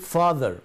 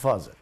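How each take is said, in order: First: The middle consonant is a th sound. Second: The middle consonant is not a th sound. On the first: The speaker calls it right. "اقول فاذر" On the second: The speaker calls it wrong. "ما اقولش فاذر"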